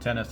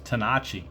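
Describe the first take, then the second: First: The name is said the anglicized English way. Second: The name is said the original Italian way. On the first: This is the easier version everyone uses. "everybody calls him Tennis" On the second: This is the family's original pronunciation. "I guess from Italian roots or whatever, it's actually pronounced Tanachi"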